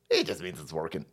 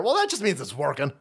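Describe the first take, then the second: First: It just means it's working said much lower and quieter; muttered-down repeat; low, soft mock echo. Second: Said in the usual way. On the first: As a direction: drop it low and soft like a mumbled excuse. Mocking the excuse.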